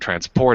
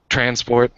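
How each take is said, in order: First: The stress is on the second syllable. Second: The stress is on the first syllable. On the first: It names the action, a verb. "if I want to move something or transport it" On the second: It names the thing, a noun. "the stress is on the first syllable, like transport"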